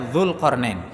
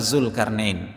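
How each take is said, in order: First: The name begins with a soft 'dh' sound. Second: The name begins with a plain 'z' sound. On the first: This is the original Arabic pronunciation. "Z di sini sebenarnya dia zal" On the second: This is how it is said in Indonesian. "dalam bahasa kita Zulkarnain"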